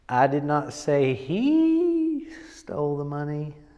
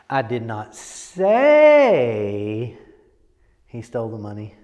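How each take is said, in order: First: The stress is on the word he. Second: The stress is on the word say.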